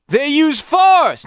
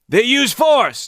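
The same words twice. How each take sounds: First: The pitch climbs higher as the voice gets louder. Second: The pitch stays low and the voice turns gruff. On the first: The speaker calls it right. "his pitch goes up when he yells" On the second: The speaker calls it wrong. "they just keep getting gruffer and gruffer and, and stay in the same range"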